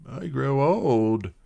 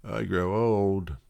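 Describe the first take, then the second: No difference in how they are said.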